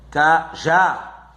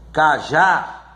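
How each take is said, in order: First: "cajá" split, ca... JÁ; two separate beats in "cajá"; syllable by syllable. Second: "cajá" with a strong final JÁ; ca-JÁ, weight on the ending; stress on last syllable. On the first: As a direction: pause before the stressed last syllable of "cajá". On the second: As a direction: lean on the second syllable of "cajá". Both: Shown as a demonstration. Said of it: "a última sílaba é a mais forte".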